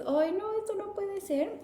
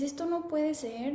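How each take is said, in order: First: Dismayed. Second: Said in the usual way. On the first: Retold or imitated. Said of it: "te enfrentas a la realidad de tu vida y dices". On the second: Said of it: "cuando dices".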